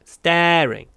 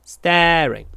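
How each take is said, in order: No difference in how they are said.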